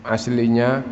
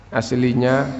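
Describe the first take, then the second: No difference in how they are said.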